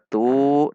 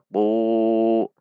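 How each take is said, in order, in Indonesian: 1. Bunyi 'tu' terdengar ringan dengan pangkal lidah yang rileks. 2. Bunyi 'tu' terdengar berat dengan pangkal lidah yang terangkat. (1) "Bukan dibaca tu" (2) "Tu agak terdengar tebal karena pangkal lidahnya meninggi"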